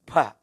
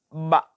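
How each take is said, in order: First: The consonant is released with a puff of breath. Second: The consonant is pressed firmly, breath held back. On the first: The speaker calls it wrong. "Jangan ba, ba tidak benar" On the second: The speaker calls it right.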